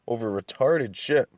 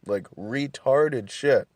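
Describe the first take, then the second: First: Said in the usual way. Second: "retarded shit" drawn out slowly, each word leaned on; stress on retarded shit. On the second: Shown as a demonstration. Telling a friend about his roommate, slow emphatic "retarded shit". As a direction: drag out "retarded shit" with disgust.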